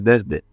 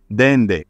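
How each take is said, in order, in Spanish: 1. La consonante del medio es un sonido s. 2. La consonante del medio es un sonido n. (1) "la forma correcta que es desde" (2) "Dende, en lugar de la forma correcta"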